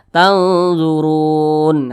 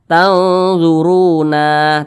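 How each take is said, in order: First: The word ends on a silent final n. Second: The word ends with an added final vowel. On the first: The speaker calls it right. "tapi dibaca tanzurun" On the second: The speaker calls it wrong. "Jangan dibaca tanzuruna"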